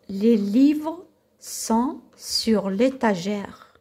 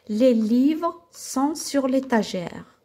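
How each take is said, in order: First: It is read at a slower pace. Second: It is read at a faster pace.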